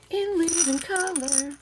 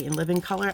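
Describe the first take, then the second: First: High, slow show-title call; TV show announcer. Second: Said in the usual way. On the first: Retold or imitated. Recalling a favourite show with a mock announcer call. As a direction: announce it like the old TV intro. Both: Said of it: "that was my show back in the day".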